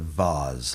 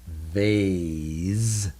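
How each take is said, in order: First: The vowel is a short A sound. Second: The vowel is a long A sound. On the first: Some people and countries say it this way. "instead of vase like some people do" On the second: It follows the spelling rule. "we would pronounce this vase"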